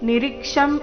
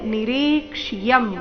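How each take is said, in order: First: No 'y' sound is heard after 'ksh'. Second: A clear 'y' sound is heard after 'ksh'. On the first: The speaker calls it wrong. "ನಿರೀಕ್ಷಂ ಇಲ್ಲ" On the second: The speaker calls it right. "ಯ ಸ್ಪಷ್ಟವಾಗಿ ಕೇಳಿಸ್ಬೇಕು"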